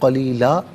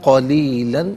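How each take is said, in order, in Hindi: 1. शब्द का अंत लंबे a स्वर से होता है। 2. शब्द का अंत न की ध्वनि से होता है।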